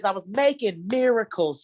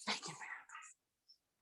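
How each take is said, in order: First: Said in the usual way. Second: Breathy whispered repeat of the punchline; whispered echo. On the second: Acted. Comic echoing her own punchline, whispered. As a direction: whisper it to yourself like a secret.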